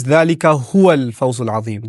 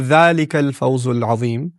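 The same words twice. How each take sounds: First: The word هو given clear weight in ذلك هو الفوز العظيم; emphatic huwa. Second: Said in the usual way. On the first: Shown as a demonstration. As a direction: lean on هو to add emphasis. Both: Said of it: "There's an additional huwa".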